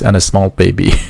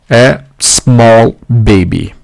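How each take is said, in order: First: An extra vowel sound comes before 'small'. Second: 'Small' starts directly with the s sound. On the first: The speaker calls it wrong. "two more mistakes" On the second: The speaker calls it right. "what we need to say or instead"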